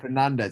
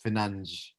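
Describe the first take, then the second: First: The e in the name is pronounced. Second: The e in the name is dropped. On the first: "instead of Fernandez" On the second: "in Portuguese they don't pronounce the e apparently"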